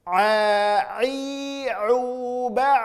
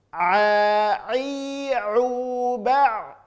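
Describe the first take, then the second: The two takes are said the same way.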